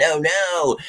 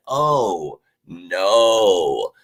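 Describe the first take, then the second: First: Higher-pitched, quick mock "oh no"; high-voiced pretend worry. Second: Long, drawn-out "oh no", sinking at the end; slow, falling mock dismay; mock dread. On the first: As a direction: feign a quick little panic about it. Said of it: "we're not looking at our schedule saying". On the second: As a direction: draw out each word in pretend doom. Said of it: "every team looking at their schedule going".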